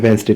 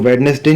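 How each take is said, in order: First: The middle d is silent. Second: The middle d is sounded. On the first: The speaker calls it right. "डी silent रहता है" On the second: The speaker calls it wrong. "देखो वेडनेसडे नहीं पढ़ते इसको"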